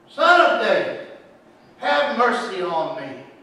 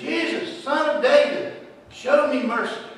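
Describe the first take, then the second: First: It is shouted at a louder volume. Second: It is said at a quieter volume.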